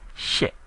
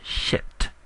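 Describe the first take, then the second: First: The word ends without a released t sound. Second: The word ends with a released t sound. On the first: It is the number eight. The speaker calls it right. "it doesn't end with the T sound" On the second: It sounds like the English curse word. The speaker calls it wrong. "It's not shit"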